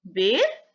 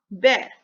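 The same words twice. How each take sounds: First: बेर with a close e vowel. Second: बैर with an open ai vowel, louder. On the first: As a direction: model बेर with a tight e. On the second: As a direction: model बैर, opening the vowel. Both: Shown as a demonstration. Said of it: "उच्चारण में भी और उनके मतलब में भी".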